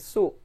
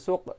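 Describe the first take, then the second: First: The word ends with a vowel. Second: The word ends with a q sound. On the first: This is the Egyptian everyday form. "tapi su gitu saja" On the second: This is the standard Arabic form. "qafnya tidak dibaca suq"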